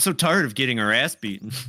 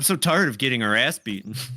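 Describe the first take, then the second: First: It is said in an imitated character voice. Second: The same.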